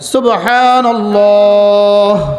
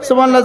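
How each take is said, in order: First: It is said slowly, once per breath. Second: It is said rapidly, many times per breath.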